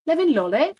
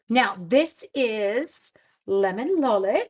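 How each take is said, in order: First: Lemon Lolly in a goofy put-on accent, higher and louder; silly accent. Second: Said in the usual way. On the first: Crafter naming her paper with a silly accent. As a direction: say the stamp name in a mock fancy accent, playing the idiot. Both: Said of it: "I like saying it with an accent like an idiot".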